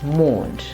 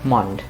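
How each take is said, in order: First: The vowel is long. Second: The vowel is short. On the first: The speaker calls it right. "but moaned" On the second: The speaker calls it wrong. "and not mond"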